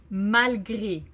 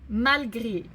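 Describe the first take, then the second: No difference in how they are said.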